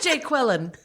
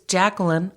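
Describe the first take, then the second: First: The name is split into 'Jay' plus 'Quillen'. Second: The name is said the usual way, Jacqueline. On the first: The speaker calls it wrong. "skit where they say the names wrong" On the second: The speaker calls it right. "It's Jacqueline"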